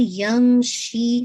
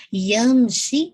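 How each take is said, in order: First: یمشی very slow, میم fully nasal, شی held two counts; full nasal hold. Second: Said in the usual way. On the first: Shown as a demonstration. Quran teacher modelling یمشی for the student, slow and nasal. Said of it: "شی کو آپ نے ٹو count پڑھنا ہے". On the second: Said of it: "میم پہ پورا آپ نے sound complete کرنا ہے".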